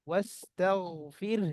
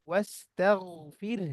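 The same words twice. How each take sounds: No difference in how they are said.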